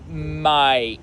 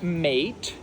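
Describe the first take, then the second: First: The vowel sounds like 'eye'. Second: The vowel sounds like 'ay'. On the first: "you would say might" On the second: "instead of mate"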